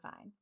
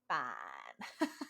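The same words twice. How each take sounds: First: The word is said flatly and boringly. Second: The word is said brightly and with energy. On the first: "That's kind of a boring version of fine" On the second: "If you say it differently, it just makes you feel different"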